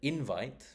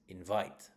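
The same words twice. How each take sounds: First: The stress is on the first syllable. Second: The stress is on the second syllable. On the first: It is a noun. "that is the noun" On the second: It is a verb. "The stress is on the second syllable if it is a verb"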